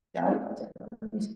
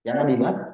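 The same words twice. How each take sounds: First: A soft, hushed whisper; half-joking whispered aside. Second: Said in the usual way. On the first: Shown as a demonstration. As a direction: whisper the warning like a secret. Repeats the warning, then whispers it.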